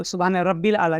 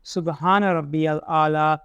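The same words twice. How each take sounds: First: सुबहान रब्बिल आला with रब्बिल clipped, the wrong way; wrong rabbil. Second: सुबहान रब्बियल आला slow, with रब्बियल fully sounded; correct rabbiyal. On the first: Teacher showing the wrong recitation. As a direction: say रब्बिल quickly as the common mistake. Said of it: "नहीं कहना". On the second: Teacher reciting the correct form slowly. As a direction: stretch रब्बियल, sounding the yal. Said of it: "यल या है वहाँ पे". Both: Shown as a demonstration.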